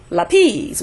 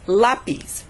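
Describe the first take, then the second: First: The stress is on the last syllable. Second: The stress is on the first syllable. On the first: The speaker calls it wrong. "It's not going to be lapis, which is what I hear a lot of times in class" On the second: The speaker calls it right. "It's going to go with the next to the last syllable"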